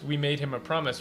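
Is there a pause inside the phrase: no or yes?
no. The phrase is said straight through without pausing. The speaker calls it wrong. "they change it to just we made him a promise"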